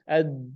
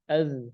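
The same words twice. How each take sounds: First: The d stops sharply with no flowing breath. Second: The d is released with breath flowing on. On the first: The speaker calls it right. "Harus ad" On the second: The speaker calls it wrong. "nggak boleh ad"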